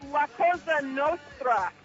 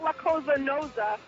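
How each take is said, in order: First: The last word has a 'tr' sound. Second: The last word has no 'tr' sound. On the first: The speaker calls it right. "it's La Cosa Nostra" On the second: The speaker calls it wrong. "not La Cosa Nosa"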